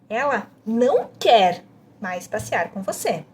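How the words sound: The emphasis falls on "não quer". "A segunda ênfase é em não quer"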